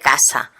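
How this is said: The S is voiceless, like a hiss. This is the general Spanish way. "en español todas las S son sordas. Se dice casa"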